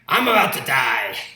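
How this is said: It is said in a put-on oafish Esau voice.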